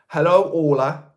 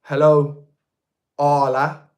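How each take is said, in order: First: "Orla" opening with a rounded "or" vowel; ORLA pronunciation. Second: "Arla" opening with an open "ah" vowel; ARLA pronunciation. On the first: Greeting viewer's daughter carefully, "Orla" said with "or". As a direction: say "Orla" slowly, first syllable like "or". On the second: Trying the daughter's name another way, "Arla" with "ah". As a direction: say "Arla" with first syllable like "ah". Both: Shown as a demonstration. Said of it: "say it in three different ways".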